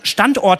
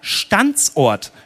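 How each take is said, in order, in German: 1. Das Wort wird ohne extra s-Laut gesprochen. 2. Vor 'ort' wird ein extra s-Laut eingefügt. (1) "der kann in seinen Liedern Standort nicht richtig aussprechen" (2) "Der singt immer Standsort"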